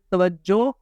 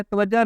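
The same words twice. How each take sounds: First: توجہ with final "o", ta-waj-jo; corrected ending. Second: توجہ with final "a", ta-waj-ja; common mispronunciation. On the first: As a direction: finish توجہ on a drawn "jo". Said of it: "بلکہ توجہ". (توجہ، آخر میں پیش کے ساتھ) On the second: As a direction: finish توجہ on "ja". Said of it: "توجہ نہیں پڑھیں گے". (توجہ، آخر میں زبر کے ساتھ) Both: Shown as a demonstration.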